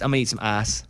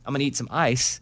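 First: It is said in an Arkansas accent. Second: It is said in a neutral standard accent.

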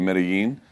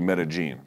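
First: The double L sounds like an English Y. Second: The double L sounds like an English J. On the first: This is a widely accepted general Spanish pronunciation. "the two L's together becomes an English Y sound in many places. So it is acceptable to say" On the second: This is how people from the city say it. "They say it with an English J. So it would be"

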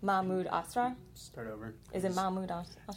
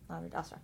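First: The pitch rises at the end like a question. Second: The pitch falls at the end like a statement. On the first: The speaker is unsure of the name. The speaker calls it wrong. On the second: The speaker states the name confidently. The speaker calls it right.

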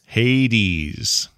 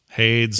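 First: The word does not rhyme with spades. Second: The word rhymes with spades. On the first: The speaker calls it right. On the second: The speaker calls it wrong.

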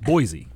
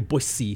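First: The middle consonant is a buzzing z sound. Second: The middle consonant is a hissing s sound. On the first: This is how outsiders say the name. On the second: This is how the locals say the name. "They say Boise"

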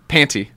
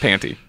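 First: The middle T is pronounced hard and clear. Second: The middle T is dropped and silent. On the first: "you really pronounce it with a hard T" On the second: "How could I forget about this silent T?"

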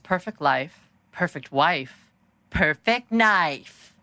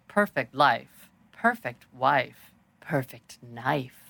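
First: Each phrase gets louder than the one before. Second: Every phrase is said quietly throughout. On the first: The speaker calls it wrong. "And instead, they got louder" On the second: The speaker calls it right. "Like, quiet?"

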